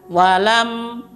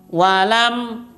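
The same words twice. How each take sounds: No difference in how they are said.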